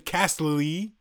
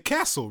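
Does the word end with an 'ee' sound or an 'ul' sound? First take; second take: ee; ul. First: The word ends with an 'ee' sound. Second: The word ends with an 'ul' sound. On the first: The speaker calls it wrong. "you don't say Castle-y" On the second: The speaker calls it right. "You say Castle"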